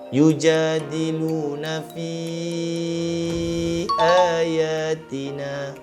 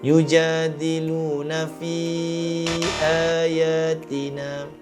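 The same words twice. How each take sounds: First: The long vowel is held for four to five counts. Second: The long vowel is held for under four counts. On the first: The speaker calls it right. "dengan kadar empat atau lima harakat" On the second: The speaker calls it wrong. "Elakkan daripada membacanya kurang daripada kadar empat harakat"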